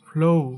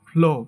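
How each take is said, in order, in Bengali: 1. স্বরধ্বনিটি ou ধ্বনিতে glide করে। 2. স্বরধ্বনিটি বিশুদ্ধ o ধ্বনি হিসেবে থাকে। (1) "এটা সঠিক উচ্চারণ হবে ফ্লো ফ্লো ফ্লো" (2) "এটাকে আমরা সাধারণত বলি ফ্লো"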